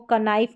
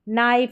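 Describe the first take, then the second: First: The word starts with a k sound before n. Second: The word starts with an n sound, no k. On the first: The speaker calls it wrong. "इसको कनाइफ नहीं पढ़ेंगे" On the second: The speaker calls it right. "के को भूल जाएंगे"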